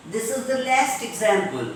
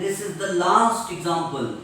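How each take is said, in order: First: LAST and EXAMPLE with front "a" as in cat; cat vowel in LAST and EXAMPLE; American last. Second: LAST and EXAMPLE with long open "ah"; British last. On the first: Teacher giving American example, LAST with cat vowel. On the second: Teacher giving British example, LAST as "laast". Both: Shown as a demonstration. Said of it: "In American English".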